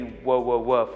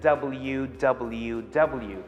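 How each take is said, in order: First: Each letter is sounded out as a syllable. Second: Each letter is said by its letter name. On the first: The speaker calls it wrong. "I didn't say whoa, whoa, whoa" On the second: The speaker calls it right. "I said W W W"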